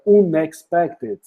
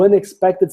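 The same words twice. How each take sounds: First: Unexpected broken into slow, separate chunks; halting beginner pronunciation. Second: Said in the usual way. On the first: Retold or imitated. Teacher imitating own early attempts at the word, "unexpected" slow and halting. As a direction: stumble through "unexpected" piece by piece. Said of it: "É, travava". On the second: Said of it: "Sai normal".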